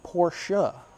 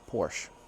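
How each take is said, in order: First: The name ends with a sounded 'uh' vowel. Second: The name ends without a final vowel sound. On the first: The speaker calls it right. "it's actually Porsche with the U H" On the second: The speaker calls it wrong. "the anglicized version with the E kind of being silent"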